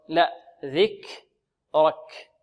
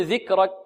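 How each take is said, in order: First: "ذكرك" slow with breathed kaf; correct slow word. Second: "ذكرك" with a voiced kaf, no breath; student error mimic. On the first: Shown as a demonstration. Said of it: "لا نقول ذكرك". (نطق "ذكرك" ببطء مع همس الكاف) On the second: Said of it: "بعض الطلاب يقول". (تقليد خطأ الطالب في الكاف)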